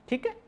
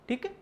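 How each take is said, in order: The two takes are said the same way.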